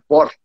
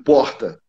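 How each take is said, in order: First: The R is said in a São Paulo way. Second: The R is said in a Rio way. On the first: "o R é, paulista, Galvão Bueno" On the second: "ou o do Rio de Janeiro"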